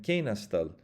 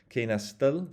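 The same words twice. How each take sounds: First: Kena stil with the accent up front on Ke; front-stressed Kena stil, falling at the end; stress on first syllable. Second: Kena stil with the accent pushed onto stil, higher and louder; stress on final stil. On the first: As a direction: hit Ke in Kena, let stil fall away. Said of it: "move the accent to the forward". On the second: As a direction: hit the last syllable, stil, in Kena stil. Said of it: "listen, listen to this". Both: Shown as a demonstration.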